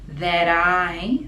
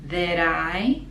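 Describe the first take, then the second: No difference in how they are said.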